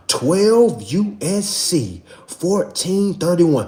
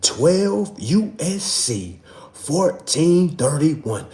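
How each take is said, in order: First: Slow, spaced-out citation again; unhurried spelled-out numbers; slow repeat. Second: Slow, every number spelled out; deliberate slow citation; slow dictation. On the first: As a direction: hammer the statute number home slowly. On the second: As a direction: read it out slowly so they can write it down. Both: Shown as a demonstration. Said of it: "One more time".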